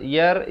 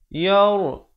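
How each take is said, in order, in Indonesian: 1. Bunyi r ringan dan tipis. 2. Bunyi r berat dan tebal. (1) "itu tak betul" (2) "Yang betulnya yar yar. Jadi begitulah ra dibaca tebal"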